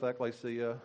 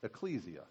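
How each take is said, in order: First: Ekklesia said with a hard double k, ek-KLAY-see-ah; ekklesia, the Greek way with two Ks; Greek pronunciation. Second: Ecclesia said with a soft c, ek-LAY-see-ah; ecclesia, the Latin way with two Cs; the Latin ecclesia, spoken plainly; Latin pronunciation. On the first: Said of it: "I started with ekklesia". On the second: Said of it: "you pronounce it ecclesia". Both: Shown as a demonstration.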